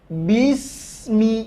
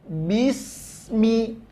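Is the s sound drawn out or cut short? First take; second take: drawn out; drawn out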